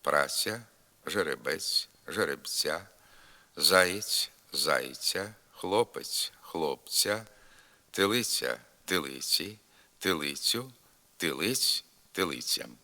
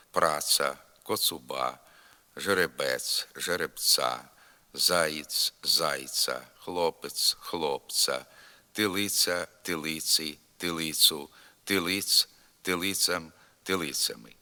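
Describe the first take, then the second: First: Palatalized ц in Праця, жеребець, тилиця; soft ц. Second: Hard unsoftened ц in праца, жеребець, тилиця; dialectal hard ц. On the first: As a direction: soften every ц to a ts with a y-glide. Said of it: "треба вимовляти м'яко". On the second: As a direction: say every ц hard, like plain ts, as in northern Ukrainian dialects. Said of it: "твердо вимовляється у північних говорах". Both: Shown as a demonstration.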